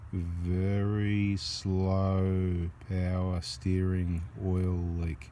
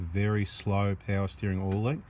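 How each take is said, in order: First: The phrase is spoken at a slow pace. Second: The phrase is spoken at a normal pace.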